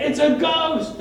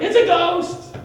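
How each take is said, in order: First: Higher and louder, frightened; mock-terrified cry; acted fright. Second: Much higher and louder, panicked; mock-terrified shriek; imitated scream of fear. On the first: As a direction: blurt it out like a scared sailor. Frightened disciples see a figure. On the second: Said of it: "you're like".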